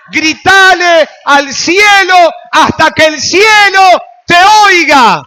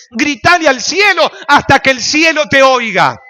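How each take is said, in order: First: Slow, much higher and louder scream; all-out pulpit scream; full shout. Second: Loud, higher preached call; strong loud exhortation; loud preaching. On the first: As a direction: shout it to heaven with everything. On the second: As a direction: call it up toward heaven. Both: Real, not acted. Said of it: "Grita más fuerte".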